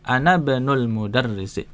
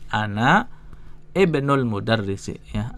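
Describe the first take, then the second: First: The words are linked, with the opening vowel dropped. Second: The words are separated, with the opening vowel sounded. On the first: "Kalau bacanya nyambung, hamzanya enggak kebaca" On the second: "Kalau dibaca dipisah tuh gini"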